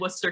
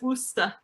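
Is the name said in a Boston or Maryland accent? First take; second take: Maryland; Boston. First: It is said in the speaker's Maryland accent. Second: It is said in a Boston accent.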